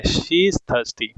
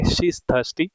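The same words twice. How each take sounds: First: Very slow, every word separate; slow repeat. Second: Said in the usual way. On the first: Shown as a demonstration. Teacher repeating the answer to students, very slowly. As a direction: drag it out for the class. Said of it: "वो काफ़ी प्यासी है". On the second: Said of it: "short form में कहेंगे".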